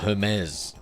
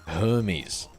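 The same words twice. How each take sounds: First: The name is said the French way. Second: The name is said the English way.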